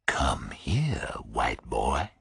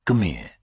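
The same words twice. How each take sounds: First: Whispered, low threat; quiet menace. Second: Said in the usual way. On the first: Acted. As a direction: breathe the order, barely voiced.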